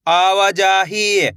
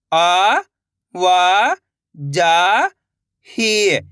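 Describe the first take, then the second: First: आवाजाही joined into one slow word; blended word. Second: आ, वा, जा, ही held, with gaps; syllable by syllable. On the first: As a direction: say आवाजाही whole, drawn out. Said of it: "तो मिलके बन जाएगा". (आवाजाही मिलाकर, धीरे से) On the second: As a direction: sound out आ, वा, जा, ही one by one. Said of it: "एक एक अक्षर का उच्चारण करके". (आ, वा, जा, ही अलग-अलग) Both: Shown as a demonstration.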